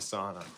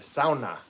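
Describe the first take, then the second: First: The word is said with an English pronunciation. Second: The word is said with a Finnish pronunciation. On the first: "I've been saying sauna" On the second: "as my Finnish neighbor calls it"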